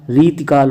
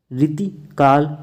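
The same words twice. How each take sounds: First: रीतिकाल with a long "ree". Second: रीतिकाल in two parts, quick "riti", then "kaal"; slow रीतिकाल with short ri and a break; short first i. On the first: Teacher correcting students, long ee in रीतिकाल. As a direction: stretch the first vowel of रीतिकाल, no break. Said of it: "रा में बड़ी की मात्रा". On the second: Teacher showing the error, short i in रीतिकाल. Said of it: "रीतिकाल होता है". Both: Shown as a demonstration.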